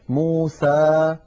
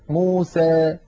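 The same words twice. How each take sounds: First: The final vowel is a clear open 'a'. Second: The final vowel leans slightly toward 'ee'. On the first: "فتحا وسطا، ليس لا فتحا مبالغا فيه ولا فتحا مخلوطا بياء" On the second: "ويخلطون هذا الصوت بشيء من الياء"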